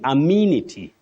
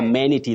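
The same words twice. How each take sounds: First: The second vowel is a long 'ee' sound. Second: The second vowel is a short sound. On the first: The speaker calls it right. "long, what we call the long high front sound, E" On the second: The speaker calls it wrong. "amenity that we hear of locally"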